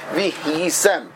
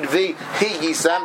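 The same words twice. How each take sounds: First: The h closes its syllable with no vowel. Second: A short vowel is sounded after the h. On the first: The speaker calls it right. "the correct way of pronouncing that" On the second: The speaker calls it wrong. "It's not read vihiyisem. That's incorrect"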